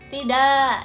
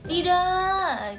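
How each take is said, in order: First: The word is said short and plain. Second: The word is drawn out with expression. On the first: It is an ordinary refusal. "Tidak itu penolakan biasa" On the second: It is an emotional refusal. "penolakan ekspresinya juga"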